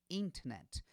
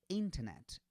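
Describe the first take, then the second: First: The word ends sharply on the final t. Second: The same.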